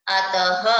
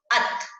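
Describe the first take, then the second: First: अतः finished with a clear h, said louder; breathy h ending. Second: Said in the usual way. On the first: Shown as a demonstration. Teacher demonstrating the visarga to pupils. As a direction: end अतः on an audible breathy h. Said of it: "विसर्ग लग जाता है तो उच्चारण कैसे करोगे". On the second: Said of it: "इसको पढ़ के देखो".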